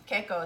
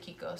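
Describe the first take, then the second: First: The first syllable sounds like 'kay'. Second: The first syllable sounds like 'kee'. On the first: This is the company's own pronunciation. "Keiko is how we pronounce it" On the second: This is how many other people say it. "A lot of people here also say Kiko"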